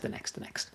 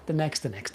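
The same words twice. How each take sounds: First: "the next, the next" trailing off into an unvoiced whisper; fading to a whisper. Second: Said in the usual way. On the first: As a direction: let "the next, the next" die away to breath. Hurry-up type fading away.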